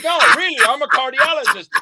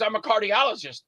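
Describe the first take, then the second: First: Higher, louder, insisting it's true. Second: Said in the usual way. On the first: Retold or imitated. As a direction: push back, dead serious. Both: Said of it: "He goes".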